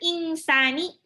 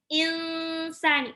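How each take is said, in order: First: The n is pronounced fully before the s. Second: The n blends nasally into the following s. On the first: The speaker calls it wrong. "bukan insani, nggak boleh gitu" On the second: The speaker calls it right. "nun sukunnya hampir mau masuk ke sin"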